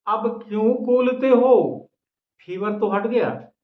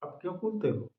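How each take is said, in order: First: Raised, higher and louder teasing question; emphatic wife. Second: Soft, hushed wife's question; said softly. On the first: Wife teases her feverish husband, loud and emphatic. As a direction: throw it out big to the audience. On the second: Wife gently asks her husband, softly. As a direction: ask it gently, almost under the breath. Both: A narrator's reading. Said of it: "वह धीरे से बोली".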